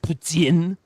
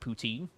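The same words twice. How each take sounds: First: The word is said with a French-style pronunciation. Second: The word is said with an English-style pronunciation. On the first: This is the original way of saying it. The speaker calls it right. "I believe it's supposed to be pronounced poutine" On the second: This is the altered way that has spread over the years. The speaker calls it wrong. "not poutine, ... the pronunciation of it has become bastardized"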